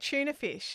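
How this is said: It is said in the Australian way. "we also say tuna fish"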